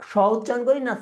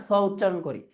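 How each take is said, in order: First: "স" said as a hushing "sho"; palatal sh sound. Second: "স" said as a hissing "so"; dental s sound. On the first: Teacher quizzing students on the first option, স pronounced as sh. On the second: Teacher quizzing students on the second option, স pronounced as dental s. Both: Shown as a demonstration.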